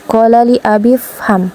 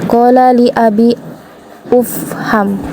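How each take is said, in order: First: The last word runs straight on from abi. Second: The last word starts with its own vowel. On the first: The speaker calls it right. "langsung disambungkan" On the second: The speaker calls it wrong. "tidak mungkin kita baca ufham"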